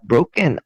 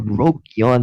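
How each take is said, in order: First: The name sounds like the word broken. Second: The name has a y sound, Brokyon. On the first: "not broken" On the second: "or Brokyon"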